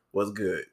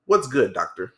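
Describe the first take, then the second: First: Said in the usual way. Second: "doctor" tacked on as a mock title; mildly spruced-up "What's good, doctor"; doctored-up greeting. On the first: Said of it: "I'm like". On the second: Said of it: "like, doctor it up".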